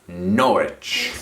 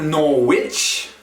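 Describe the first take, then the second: First: The middle sounds are condensed into one. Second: The middle letters are sounded out separately. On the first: The speaker calls it right. "you try to condense letters and sounds into one" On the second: The speaker calls it wrong. "Not Norwich"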